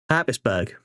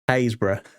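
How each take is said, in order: First: It is said as two syllables, like Habsburg. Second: It is said as three syllables, like Haysborough. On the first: The speaker calls it wrong. "Most people go Habsburg" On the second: The speaker calls it right. "That is pronounced Haysborough"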